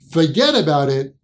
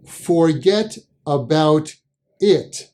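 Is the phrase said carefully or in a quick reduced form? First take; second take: reduced; careful. First: The words run together quickly in reduced form. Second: Each word is said fully and separately.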